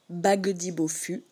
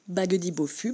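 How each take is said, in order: First: The phrase is spoken at a slow pace. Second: The phrase is spoken at a fast pace.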